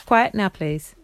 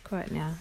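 First: Firm call to the room; raised calling voice. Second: Hushed. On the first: Calling girls to settle. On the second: Hushing child before story. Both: Real, not acted.

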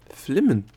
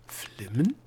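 First: Louder, higher startled repeat; surprised. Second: Questioning, with a clear rise; puzzled echo. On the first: Gnome querying the Egozette's odd word, surprised. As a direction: burst out with it, pitch falling away. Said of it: "fragte der Gnom überrascht". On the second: Gnome hearing an unknown word, puzzled. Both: A narrator's reading.

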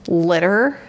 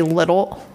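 First: Said in the usual way. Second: "little" said with an l instead of the r in "litter"; r swapped for l. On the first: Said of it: "instead of saying". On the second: Shown as a demonstration. [name] shows how she now mispronounces "litter" as "little". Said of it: "I'll say little".

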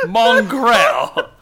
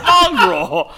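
First: "Mongrel" as mon-GRELL, rhyming with well; "Mongrel" with a clear, weighted second syllable; mispronounced mongrel. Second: Said in the usual way. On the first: Shown as a demonstration. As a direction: say "Mongrel" with a full "grell" ending. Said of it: "Not mongrel. Mongrel". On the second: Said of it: "Not mongrel".

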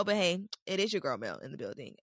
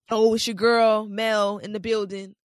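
First: Said in the usual way. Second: Loud, hyped radio DJ intro. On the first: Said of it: "Um, no". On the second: Pretend. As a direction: announce yourself like a DJ. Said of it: "like I'm auditioning to be a V J".

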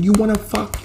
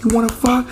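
First: High mock woman's yell; angry woman yelling. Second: Louder angry yell. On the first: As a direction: throw the question at him in a high voice. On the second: Retold or imitated. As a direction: repeat it higher and louder, stressing fuck. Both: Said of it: "She's like".

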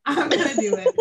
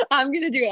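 First: Laughing through the words. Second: Quick laughing echo; fast giggly repeat. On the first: Declaring it to her cohost, laughing. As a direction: giggle it out. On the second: Echoing her cohost's vow with a laugh. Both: Real, not acted.

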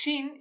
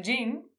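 First: "jean" with the Rioplatense sh sound at the start; the local mispronunciation of "jean"; Argentine sh pronunciation. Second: Jean said as "zhin" with a voiced zh; "jean" with the voiced English-style zh at the start; the correct English "jean"; English pronunciation. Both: Shown as a demonstration. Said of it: "decimos jean en lugar de jean".

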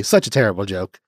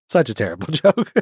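First: Said in the usual way. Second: A laugh breaking into the word joke; laughing at own joke. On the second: Real, not acted. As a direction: chuckle mid-line at your own bad joke.

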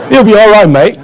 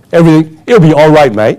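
First: Mock Australian accent, louder and higher; louder Australian saying. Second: Light mock Australian accent, easygoing; Australian saying. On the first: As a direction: ham up the carefree Aussie line. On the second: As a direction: toss it off like a laid-back Aussie. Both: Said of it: "the typical saying in Australia".

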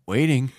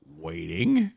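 First: Said in the usual way. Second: Whispered "Waiting." with a rising end; mock whisper. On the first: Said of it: "mock waiting after challenge". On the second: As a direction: breathe it out teasingly. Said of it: "mock waiting, final whisper".

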